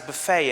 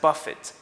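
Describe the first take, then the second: First: It is said the way the meal word sounds. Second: It is said the way the hitting word sounds. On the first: A meal where guests serve themselves. "not pronounced as buffet anymore" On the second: To hit something repeatedly and violently. "It's pronounced as buffet because it's expressing a different meaning now"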